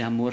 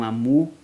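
First: The word ends with an r sound. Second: The word ends in a u vowel without r. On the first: This is the standard form of the word. "em vez de amor" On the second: This is a local dialect form influenced by French. "falam amu"

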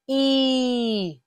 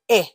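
First: The vowel is a long, stretched 'ee' sound. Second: The vowel is a quick, short 'eh' sound. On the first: "Long E, stretch it out" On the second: "Short E, real quick"

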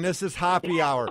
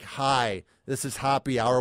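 First: It is said with excitement and energy. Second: It is said flatly with no excitement.

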